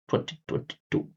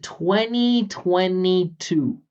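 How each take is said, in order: First: Every consonant is pronounced clearly. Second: A consonant is dropped and the vowels are longer. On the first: "He said twenty twenty-two. For his part, you can only hear consonants" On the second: "I even removed a consonant"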